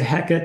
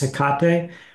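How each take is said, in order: First: The name is pronounced the English way. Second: The name is pronounced the Greek way. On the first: "That's sort of the anglicized pronunciation" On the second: "if you're going for a more Greek pronunciation"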